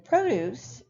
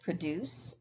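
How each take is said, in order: First: Produce stressed on PRO; first-syllable stress. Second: Produce stressed on DUCE; second-syllable stress. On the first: Teacher naming the noun for students, produce stressed on first syllable. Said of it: "produce is stressed on the first". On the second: Teacher checking students spotted the verb, produce stressed on second syllable. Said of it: "is stressed on what we call the second syllable". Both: Shown as a demonstration.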